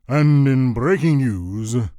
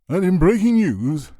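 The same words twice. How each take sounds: First: It is said in a lower, deeper, manlier voice. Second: It is said in an ordinary pitch and pace.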